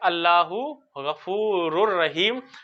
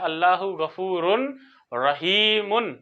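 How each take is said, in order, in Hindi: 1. n की आवाज़ बाद वाले r में मिल जाती है। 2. r से पहले n की आवाज़ बरकरार रहती है। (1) "इस नून की जगह पर रा आ जाता है" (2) "ग्रामर के एतबार से गलती नहीं है"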